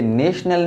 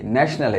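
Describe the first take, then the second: First: नेशनल with a long "ay", as in nation: "NAY-shnul"; नेशनल with the first vowel of "name"; wrong pronunciation. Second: नेशनल with a short open "a", as in gnash: "NASH-nul"; नेशनल with the first vowel of "cat"; correct pronunciation. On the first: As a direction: say नेशनल higher, as the mistaken "naysh-nal". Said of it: "ये नेशनल नहीं है". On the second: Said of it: "इसका सही pronunciation क्या है?". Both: Shown as a demonstration.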